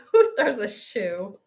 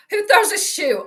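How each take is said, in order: First: Who throws a shoe? drawn out slowly and lower; slow, drawn-out quote. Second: Indignant movie quote. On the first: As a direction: stretch each word of Who throws a shoe?. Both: Retold or imitated. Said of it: "I have that queued up".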